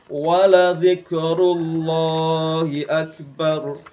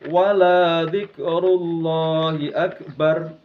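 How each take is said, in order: First: The vowel in la is said short. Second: The vowel in la is drawn out long. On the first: Truly, remembering God is greatest. "La itu kalau dibaca pendek itu artinya sungguh" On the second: And do not remember God the greatest. "Kalau dibaca panjang itu nanti bisa menjadi lanahi atau lanafi"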